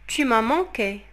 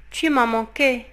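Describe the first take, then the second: No difference in how they are said.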